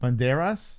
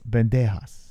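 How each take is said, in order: First: The last syllable starts with an R sound. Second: The last syllable starts with an H-like sound. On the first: The speaker calls it right. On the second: The speaker calls it wrong. "No, not Haas"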